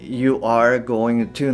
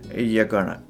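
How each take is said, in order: First: Every word is said fully and separately. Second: The words are shortened and run together.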